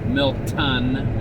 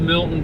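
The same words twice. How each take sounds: First: The T in the middle is clearly pronounced. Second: The T in the middle is dropped or swallowed.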